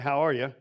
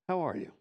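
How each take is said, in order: First: It is said in a quick, offhand, casual way. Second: It is said in a slow, warm, caring way. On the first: The speaker is only greeting in passing. "Do I really care how are you? Probably not" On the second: The speaker really wants to know. "I can actually sit down right in front of you and say"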